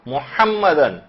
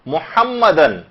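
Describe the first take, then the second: First: The h sound is strong and throaty. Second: The same.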